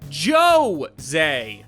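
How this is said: The name is said with an American accent.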